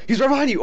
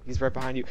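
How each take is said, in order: First: High, loud, urgent warning; panicked shout. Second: Said in the usual way. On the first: Real, not acted. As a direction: yell it like danger is close. Warning teammate in game.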